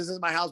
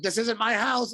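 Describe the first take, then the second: First: Said in the usual way. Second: High-pitched, mock-frantic protest; retold yell. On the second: Homeowner to firefighters breaking in, high retold yell. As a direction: call it out high, without much extra volume. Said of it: "I, like, yelled it".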